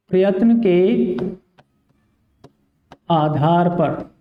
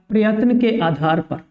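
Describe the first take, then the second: First: Slow teacher emphasis. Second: Said in the usual way. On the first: Shown as a demonstration. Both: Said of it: "किसके आधार पर विद्यार्थियों?".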